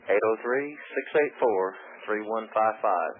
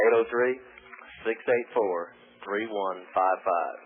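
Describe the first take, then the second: First: The number is read at a fast pace. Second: The number is read at a slow pace.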